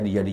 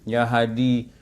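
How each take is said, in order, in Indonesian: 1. Frasa itu diucapkan cepat dan kabur. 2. Frasa itu diucapkan pelan dan jelas.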